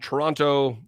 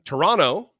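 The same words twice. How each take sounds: First: Both T sounds are clearly pronounced. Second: The second T sound is dropped.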